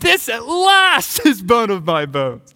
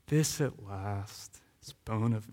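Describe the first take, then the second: First: It is said loudly. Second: It is said quietly.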